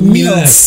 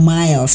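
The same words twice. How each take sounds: First: It is read letter by letter, like 'mee-les'. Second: It is read the English way, like 'mails'. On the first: How the receptionist always said it. The speaker calls it wrong. "bilangnya selalu Miles" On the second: The intended name of the company. The speaker calls it right. "Resepsionis gue nggak bisa bilang Miles"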